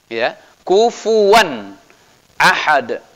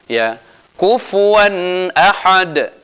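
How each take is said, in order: The two takes are said the same way.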